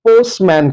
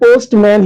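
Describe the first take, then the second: First: The t sound in the middle is dropped. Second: The t sound in the middle is pronounced. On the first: "उसे गिराकर पोस्टमैन कहता है" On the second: "हम अक्सर पोस्टमैन ही बोलते हैं"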